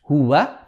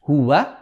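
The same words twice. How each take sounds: First: The w sound is light and flat. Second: The w sound is light and flat.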